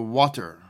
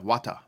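First: It is said in the speaker's usual accent. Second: It is said in a Jamaican accent.

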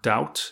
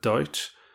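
First: The word is said in a neutral accent. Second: The word is said in an Irish accent.

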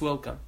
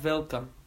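First: The word begins with a w sound. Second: The word begins with a v sound. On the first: The speaker calls it right. "it's welcome" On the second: The speaker calls it wrong. "it's not welcome"

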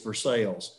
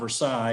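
First: It is said the local way. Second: It is said the non-local way. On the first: The speaker calls it right. "it's Versailles" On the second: The speaker calls it wrong. "where I'm from, it's not Versailles"

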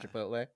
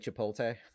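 First: The t sound comes before the l sound. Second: The l sound comes before the t sound. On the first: "Or Chipotle?" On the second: "Does every person over 50 years old say Chipoltay?"

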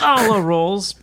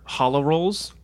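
First: The first word is said harshly and forcefully. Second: The first word is said plainly and softly. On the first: The speaker calls it right. "I mispronounced that. It's hollow rolls" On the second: The speaker calls it wrong. "I'm sorry, I mispronounced"

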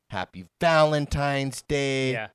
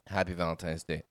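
First: The greeting sounds lively and enthusiastic. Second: The greeting sounds flat and unenthusiastic. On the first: The occasion is being celebrated in a big way. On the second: The occasion feels like an afterthought.

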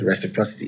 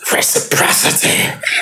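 First: It is said plainly, like a normal word. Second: It is said with great power, like the preacher.

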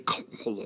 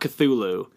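First: The second syllable is said with a guttural sound. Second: The second syllable is said plainly.

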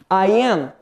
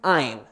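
First: It is said as two full words. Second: It is said as one contracted syllable.

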